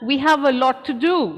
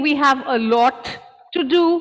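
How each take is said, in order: First: A single t sound links both words. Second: The t sound is said twice, separately. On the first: The speaker calls it right. "we just say the sound t once" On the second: The speaker calls it wrong. "instead of saying"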